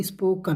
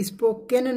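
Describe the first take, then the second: First: "स्पोकन" with a light schwa in the last syllable; corrected pronunciation. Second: "स्पोकन" with an "e" in the last syllable, spo-ken; wrong pronunciation. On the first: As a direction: say "स्पोकन" as is-po-kun, not spo-ken. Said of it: "क्या बोलेंगे". ("स्पोकन" के अंत में हल्की अ की आवाज़, स्पो-कन) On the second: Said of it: "इसे स्पोकन नहीं". ("स्पोकन" को स्पो-केन बोलें, ए की आवाज़ के साथ) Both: Shown as a demonstration.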